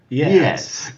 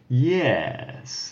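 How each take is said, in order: First: The word is said more quickly. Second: The word is said more slowly. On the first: "but maybe a little bit quicker" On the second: "How is the yes? Is it like"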